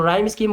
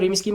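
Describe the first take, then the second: First: The vowel in rhyme sounds like 'eye'. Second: The vowel in rhyme sounds like 'ee'. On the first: "राइम बोला जाता है वैसे तो ये word को" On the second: "रीम स्कीम बोल सकते हो"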